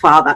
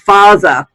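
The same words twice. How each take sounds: First: The th is a soft, buzzing th sound. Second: The th is replaced by a harder sound. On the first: The speaker calls it right. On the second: The speaker calls it wrong.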